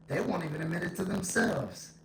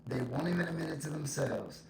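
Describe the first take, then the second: No difference in how they are said.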